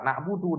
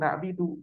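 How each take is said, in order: First: The vowel after b is u. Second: The vowel after b is i. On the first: The speaker calls it right. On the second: The speaker calls it wrong.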